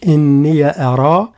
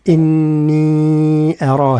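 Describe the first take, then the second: First: "إني أرى" with the ي of إني kept short, slowly; without the long vowel. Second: "إني أرى" with the ي of إني drawn out long, recited slowly; madd on إني. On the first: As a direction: read "إني أرى" with no madd on إني. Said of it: "في حين هو قرأها برواية حفص بالمد". ("إني أرى" بلا مد) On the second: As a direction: stretch إني in "إني أرى" the way Hafs reads it. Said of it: "هكذا". ("إني أرى" بالمد على إني) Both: Shown as a demonstration.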